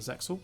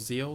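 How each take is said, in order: First: The X sound is pronounced in the name. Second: The X sound is left silent in the name. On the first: The speaker calls it wrong. "I always forget it's Zeal, not Zexal" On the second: The speaker calls it right. "The X is meant to be silent"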